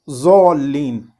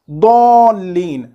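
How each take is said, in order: First: The word begins with a plain z sound. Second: The word begins with a heavy d-like sound. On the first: The speaker calls it wrong. "and not zallin" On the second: The speaker calls it right. "it is dallin"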